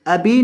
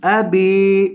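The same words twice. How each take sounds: First: अभी with a breathy aspirated bh; wrong aspirated bh. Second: अबी with a clean b and no puff of air; plain unaspirated b. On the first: Teacher imitates the students' common aspirated mistake. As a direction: say अभी with a puff of air after b. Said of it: "अभी नहीं". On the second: Teacher gives students the correct unaspirated reading. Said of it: "अभी नहीं, अबी". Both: Shown as a demonstration.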